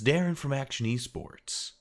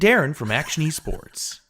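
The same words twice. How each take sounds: First: It is said in a normal conversational voice. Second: It is said in a put-on presenter voice.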